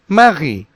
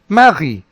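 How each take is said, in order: The two takes are said the same way.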